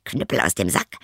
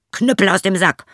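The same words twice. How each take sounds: First: Said in the usual way. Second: High, loud ringing call; shouted command. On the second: Acted. Journeyman orders the cudgel out of the sack, loud shout. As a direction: bark the magic words at the attackers. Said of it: "so sprach er".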